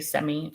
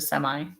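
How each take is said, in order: First: It is said with a Canadian pronunciation. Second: It is said with an American pronunciation. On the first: This is how Canadians say the word. "they say semi" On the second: This is how the speaker's own region says it. "instead of semi"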